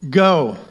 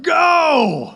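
First: It is said calmly, without force. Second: It is said forcefully, like an exclamation.

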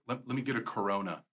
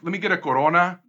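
First: Corona is said with an anglicized English accent. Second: Corona is said with a Spanish accent. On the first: The speaker blends in with English speakers. "you can whitewash saying" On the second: The speaker forces the original pronunciation. "I don't go like"

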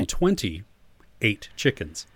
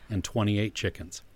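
First: The phrase is read slowly and deliberately. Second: The phrase is read at a normal speed.

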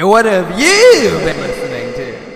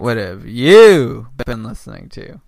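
First: It is said with more energy. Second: It is said with low energy.

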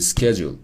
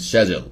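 First: The word is said with an American accent. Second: The word is said with a British accent.

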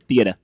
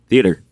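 First: It is said in a Rhode Island accent. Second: It is said in a plain accent.

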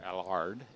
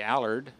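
First: The name is said the way it's said overseas. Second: The name is said the speaker's usual way.

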